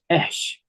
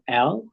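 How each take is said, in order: First: The article ends with a doubled SH sound. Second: The article ends with an L sound. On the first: The speaker calls it right. "it's ash" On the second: The speaker calls it wrong. "Instead of al"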